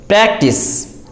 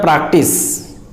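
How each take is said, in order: First: PRACTICE with a front a, "PRAK-tis" as in cat; correct pronunciation. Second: PRACTICE with a back a, "PRUK-tis"; mispronunciation. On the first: Teacher models practice for learners, pronounced with cat vowel. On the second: Teacher warns learners off practice mispronounced "PRAHK-tis". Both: Shown as a demonstration. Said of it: "It is not practice".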